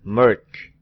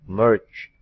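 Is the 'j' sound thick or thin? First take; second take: thick; thick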